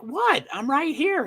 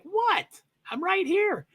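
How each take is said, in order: First: High-pitched voice for a confused dog; high, bewildered pet impression; puzzled dog voice. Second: Very high, squeaky confused-dog voice; squeaky bewildered pet impression; puzzled dog voice. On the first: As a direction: squeak it out like a baffled pup. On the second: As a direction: pitch it way up as a baffled pup. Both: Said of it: "Is that the right voice inflection?".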